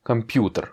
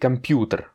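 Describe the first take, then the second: The two takes are said the same way.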